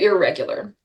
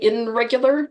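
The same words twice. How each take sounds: First: The prefix blends into the r sound. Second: The prefix ends with an n sound. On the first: The speaker calls it right. "got assimilated in our pronunciation to" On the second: The speaker calls it wrong. "it probably was I N, but because it is difficult to say"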